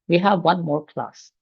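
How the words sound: It is said in a pleased, upbeat tone. Having another class is good news.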